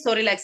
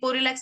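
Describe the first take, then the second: First: The word begins with an S sound. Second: The word begins with a P sound. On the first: The speaker calls it right. "सोरिलैक्स है, यहाँ पे पी silent है" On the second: The speaker calls it wrong. "ये पोरिलैक्स नहीं है"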